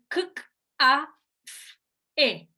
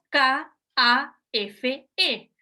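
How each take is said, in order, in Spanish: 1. Cada letra se dice como su sonido. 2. Cada letra se dice con su nombre completo. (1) "nosotros decimos el fonema" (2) "No decimos"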